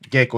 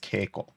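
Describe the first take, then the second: First: The word begins with a soft G sound. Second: The word begins with a hard K sound. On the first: The speaker calls it wrong. "geiko is not a word" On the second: The speaker calls it right. "the word is keiko"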